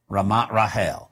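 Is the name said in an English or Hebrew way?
Hebrew. The name is said with Hebrew pronunciation. "But they pronounce it"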